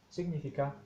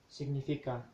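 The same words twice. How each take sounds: Both takes have the same delivery.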